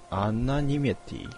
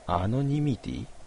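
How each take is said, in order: First: The second syllable has an 'a' vowel. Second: The second syllable has an 'o' vowel. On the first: "アナニマティでした" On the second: "ここがアノニミティって書いてあるけど"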